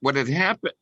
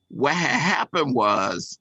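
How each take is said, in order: First: It is said in his normal voice. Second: It is said in a put-on Latin voice.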